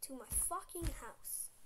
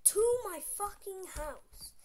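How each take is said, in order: First: Said in the usual way. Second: Very loud, high, slow; loud emphatic. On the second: Real, not acted. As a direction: yell to my fucking house, drawn out. Retelling the chase, repeated.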